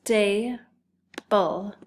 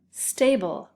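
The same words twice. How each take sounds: First: STABLE in two separate beats, STA, pause, BLE; split into syllables. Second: Said in the usual way. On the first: Shown as a demonstration. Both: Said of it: "listen closely to those syllables".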